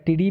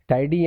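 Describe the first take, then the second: First: The first vowel sounds like 'ee'. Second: The first vowel sounds like 'eye'. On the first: The speaker calls it wrong. "टीडी भी इसको आप पढ़ सकते हो" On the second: The speaker calls it right. "But वैसे टाइडी बोलना ज़्यादा better होगा"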